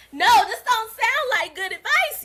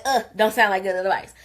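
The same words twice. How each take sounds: First: High, loud laughing protest; laughing disbelief. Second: Said in the usual way. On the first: Retold or imitated. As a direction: crack up in disbelief at the advice. Second, exasperated reply.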